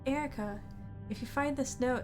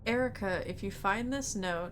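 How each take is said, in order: First: It is read in a put-on female voice. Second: It is read in the speaker's normal voice.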